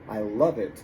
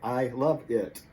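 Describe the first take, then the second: First: The words flow together, v joined to it. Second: Each word is said separately with breaks. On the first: The speaker calls it right. "we like our things to flow" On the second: The speaker calls it wrong. "It sounds real choppy"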